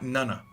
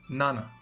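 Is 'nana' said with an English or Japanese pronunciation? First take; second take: English; Japanese. First: It is said with an English pronunciation. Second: It is said with a Japanese pronunciation. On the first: It means a grandmother. The speaker calls it wrong. "not Nana" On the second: It means the number seven. The speaker calls it right. "But this is Nana"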